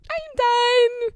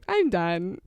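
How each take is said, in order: First: Very high, loud, sustained squeal; high-pitched squeal. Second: Said in the usual way. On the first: Pretend. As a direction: shoot way up and hold it loudly. Same words repeated as a squeal.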